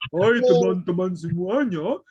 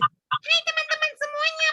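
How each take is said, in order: First: It is said in a big, deep voice. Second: It is said in a small, high voice.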